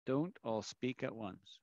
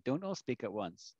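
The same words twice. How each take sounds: First: Dry teacher sarcasm after a silent class; sarcastic. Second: Sarcastic. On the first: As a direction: say it drily to a quiet room. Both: Shown as a demonstration. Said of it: "I'm being completely sarcastic".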